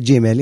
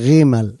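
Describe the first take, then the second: First: The word begins with a j sound. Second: The word begins with a guttural r sound. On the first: The letter has a dagesh. "אם היא דגושה, זה ג'ימל ... נהגת כמו האות ג'י באנגלית" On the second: The letter has no dagesh. "אם זה לא דגושה, היא רימל ... נהגת כמו רש גרונית"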